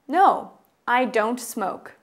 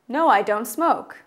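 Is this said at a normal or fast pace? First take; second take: normal; fast. First: It is said at a normal, slower pace. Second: It is said at a faster pace.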